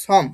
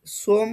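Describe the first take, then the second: First: সম with an open vowel instead of o; সম shown with the open vowel; correct pronunciation. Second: সোম with a rounded long o, as in "som"; সোম shown with an o vowel; wrong pronunciation. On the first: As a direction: say সম with an open first sound, not "shom". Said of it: "উচ্চারণ আসবে যে সম". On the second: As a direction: say সোম with a closed o sound. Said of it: "এই প্রোনাউন্সিয়েশনটা এটার আসবে না". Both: Shown as a demonstration.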